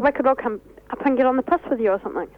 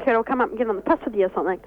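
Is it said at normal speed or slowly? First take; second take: slowly; normal. First: It is said slowly and deliberately. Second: It is said at normal conversational speed.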